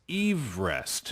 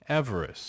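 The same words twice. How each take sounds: First: The first syllable sounds like 'eve'. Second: The first syllable sounds like 'ev'. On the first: It names the surveyor himself. "it's the surname that's pronounced. So apparently it's Everest" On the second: It names the mountain today. "But the modern day pronunciation of the mountain"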